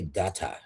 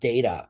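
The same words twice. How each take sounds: First: It uses a fancier, more refined pronunciation. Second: It uses the everyday, ordinary pronunciation. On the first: "How can I be more fancy?" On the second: "instead of saying data"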